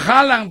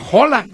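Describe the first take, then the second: First: The name begins with a harsh, raspy j sound. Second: The name begins with a soft, light h sound. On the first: The speaker calls it wrong. "Para que no digan Haaland, porque ya pusieron ahí Haaland con J" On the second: The speaker calls it right. "la pronunciación correcta es"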